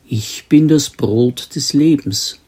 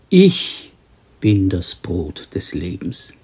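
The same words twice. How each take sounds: First: The stress falls on the word Brot. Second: The stress falls on the word Ich. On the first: It answers the question of who the speaker is. The speaker calls it wrong. "Wir lesen normalerweise" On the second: It answers the question of what the true bread of life is. The speaker calls it right. "Doch der Urtext fordert eine andere Betonung"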